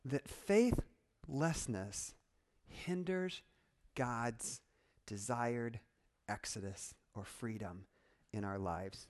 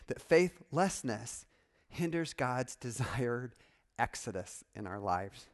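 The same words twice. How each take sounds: First: Softly, one weighted piece at a time with long pauses; slow, deliberate repeat. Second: Said in the usual way. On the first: Shown as a demonstration. Preacher repeats his warning to the congregation, slow and solemn. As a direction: let it sink in, dropping low toward the end.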